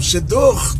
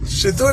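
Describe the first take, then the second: First: The final R is a Rio-style guttural R. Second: The final R is a São Paulo-style R. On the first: It means a presentation or introduction. "com R carioca no fim" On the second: It means a broadcast or transmission. "que é um R paulista"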